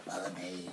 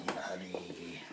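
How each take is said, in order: First: Said in the usual way. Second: Breathy whispered follow me. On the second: Acted. Leading the way into the kitchen, whispering. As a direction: whisper it like a secret.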